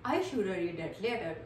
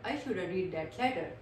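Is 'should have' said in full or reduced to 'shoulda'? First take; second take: reduced; reduced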